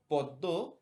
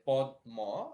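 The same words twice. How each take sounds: First: পদ্ম said as poddo, d doubled, no m; পদ্ম with assimilated dd: poddo; Bengali assimilated pronunciation. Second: পদ্ম said as podmo, d and m both sounded; পদ্ম with a clear d then m, slowly; spelled-out pronunciation. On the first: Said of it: "উচ্চারণ হয়ে যায় পদ্ম". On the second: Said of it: "Hindi ভাষায় আপনারা শুনে থাকবেন". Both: Shown as a demonstration.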